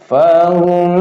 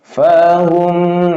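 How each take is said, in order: First: The sound is held briefly, not drawn out. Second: The sound is held too long, drawn out. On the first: The speaker calls it right. "nah gitu ya, nggak boleh kelamaan" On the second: The speaker calls it wrong. "yang salah"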